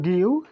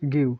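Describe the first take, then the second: First: Two separate syllables are said, gi then yu. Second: The sounds merge into one gliding syllable. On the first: "হওয়ার কথা ছিল গি ইউ" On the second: "এখন হয়ে যাবে গিউ"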